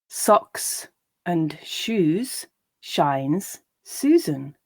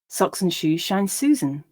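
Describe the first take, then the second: First: The line is read slowly. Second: The line is read at a natural speed. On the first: "I'll read each line slowly" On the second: "and then at a more natural pace"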